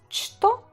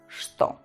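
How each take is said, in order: First: It is read exactly letter by letter. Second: It is said with a different first sound. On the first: The speaker calls it wrong. "No что" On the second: The speaker calls it right. "sino что"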